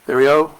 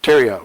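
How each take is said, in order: First: The name begins with a 'th' sound. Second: The name begins with a plain 't' sound. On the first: The speaker calls it wrong. "Am I saying that right" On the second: The speaker calls it right. "Got to drop the H, right?"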